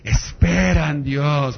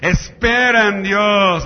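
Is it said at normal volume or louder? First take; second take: normal; louder. First: It is said at normal volume. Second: It is said more loudly.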